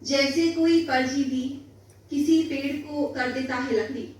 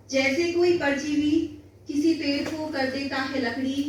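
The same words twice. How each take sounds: The two takes are said the same way.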